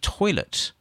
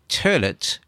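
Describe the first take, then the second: First: It is said with a standard 'oy' vowel. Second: It is said with a Brooklyn 'ur' vowel.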